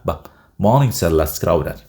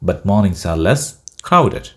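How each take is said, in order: First: 'But' is cut short, its final t dropped. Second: 'But' is said fully, with its final t.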